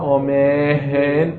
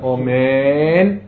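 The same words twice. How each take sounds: First: An h sound is inserted in the middle. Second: The m is drawn out with no h. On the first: The speaker calls it wrong. "לא אומן, לא להוסיף ה" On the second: The speaker calls it right. "מותר לך למשוך ולהגיד אומן"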